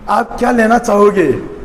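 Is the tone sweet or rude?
sweet. It is said sweetly and politely.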